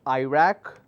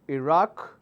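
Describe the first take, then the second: First: It is said in an American pronunciation. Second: It is said in the usual international pronunciation. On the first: "But in America, in, in United States, it's pronounced as Iraq" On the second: "All over the world, we pronounce that as Iraq"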